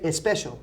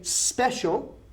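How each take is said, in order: First: It starts with an added e vowel sound. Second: It starts directly with the s sound. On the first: The speaker calls it wrong. "We don't say especial" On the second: The speaker calls it right. "We say special. There's no E there"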